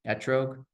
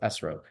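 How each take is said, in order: First: It is said with a T sound before -rog. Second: It is said with an S sound before -rog. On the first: It reflects the common modern pronunciation. "everyone does just like the T sound" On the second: "If it didn't have the dot, it would be an S"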